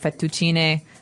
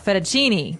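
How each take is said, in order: First: It is said with an Italian pronunciation. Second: It is said with an American pronunciation.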